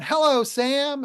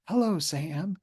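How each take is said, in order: First: It is said loudly. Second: It is said quietly. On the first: "some where we're loud" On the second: "some where we're quiet"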